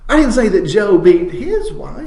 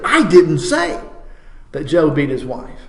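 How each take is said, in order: First: The word "his" carries the main stress. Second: The word "didn't" carries the main stress. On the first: It was someone else's wife. "it was his neighbor's wife that he knocked around" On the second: The speaker flatly denies it. "now that's a statement of absolute denial"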